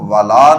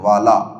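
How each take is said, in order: First: The final 'la' has a long vowel. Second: The final 'la' has a short vowel. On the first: It is read like the word meaning no. The speaker calls it wrong. "इसलिए हम इसको वाला नहीं पढ़ेंगे" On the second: It is read as the word meaning surely. The speaker calls it right. "बल्कि वाला"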